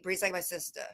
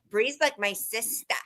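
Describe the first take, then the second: First: It has a milder, natural Boston accent. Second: It has a heavily exaggerated Boston accent.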